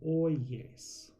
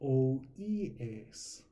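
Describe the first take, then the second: First: A y glide links the two vowels. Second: Three separate vowels are said in a row. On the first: The speaker calls it right. "this one sounds way better" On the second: The speaker calls it wrong. "Sounds weird"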